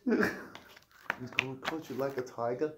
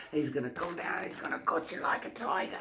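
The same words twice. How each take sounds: First: Slow, clumsy mock-British copy; badly faked British accent; attempted British accent. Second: Soft, hushed British celebrity impression; Russell Brand. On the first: Guest copying the host's line, failed British accent. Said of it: "I can't do accents". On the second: Host showing off his impression, hushed Russell Brand. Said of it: "That's Russell".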